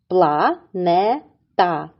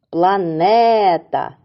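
First: Планета drawn out slowly, syllable by syllable. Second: Планета slow, with the second syllable не leaned on; stress on НЕ. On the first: Teacher slowly splits Планета for the kids, syllable by syllable. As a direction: stretch out Планета in three beats. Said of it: "поділимо його на склади". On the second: Teacher stresses the second syllable of Планета for the kids. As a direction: lean on the не in Планета. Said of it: "Поставимо наголос у слові". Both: Shown as a demonstration.

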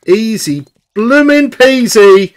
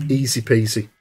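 First: Slow, pleased "Easy bloomin' peasy"; emphatic easy peasy. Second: Soft easy peasy. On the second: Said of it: "Easy bloomin' peasy". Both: Shown as a demonstration.

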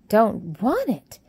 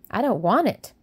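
First: Slow, louder, shocked echo of want; aghast that food is refused; horrified exclamation. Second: A touch of a petulant no; sulky refusal. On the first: A narrator's reading. Martha horrified at Mary refusing food, loud shocked echo. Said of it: "exclaimed Martha in horror". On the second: Acted. Mary refusing her breakfast, mildly sulky. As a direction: push the food away with the words. Mary pushing away the cereal.

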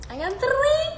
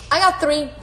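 First: Much higher, sing-song; high playful. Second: Said in the usual way. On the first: Shown as a demonstration. Showing viewers her dimples, in a high playful voice. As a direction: chirp it up high. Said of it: "You see it?".

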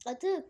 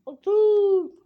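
First: Said in the usual way. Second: Loud command. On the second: Shown as a demonstration. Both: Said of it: "Sakın atmayın".

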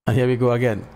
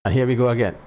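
Both takes have the same delivery.

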